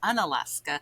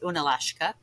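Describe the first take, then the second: First: The name has a plain 's' sound before 'ka'. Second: The name has an 'sh' sound before 'ka'. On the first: This is the shortened present-day name. "now it's Unalaska" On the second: This is the original native name. "the native name is Unalashka"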